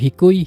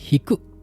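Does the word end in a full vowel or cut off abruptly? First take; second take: full vowel; cut off. First: The final vowel i is fully pronounced. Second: The word ends abruptly with a held stop. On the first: It states the quality plainly. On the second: It expresses surprise.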